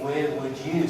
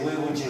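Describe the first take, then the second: First: 'You' is said as a full, clear word. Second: 'You' is reduced and linked to 'would'. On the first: The speaker calls it wrong. "So we want to say you" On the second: The speaker calls it right. "But you don't say you"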